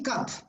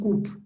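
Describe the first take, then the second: First: The vowel is a short open 'uh'. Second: The vowel is a rounded 'oo'. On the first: The speaker calls it right. "You say cup" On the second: The speaker calls it wrong. "no coop"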